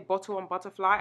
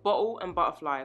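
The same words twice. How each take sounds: First: The words are pronounced in a careful, standard way. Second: The words are pronounced in the speaker's natural accent. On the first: It is adjusted so others understand. "I only say it that way so that people can understand me" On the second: It is the speaker's everyday pronunciation. "that's the way I really say it"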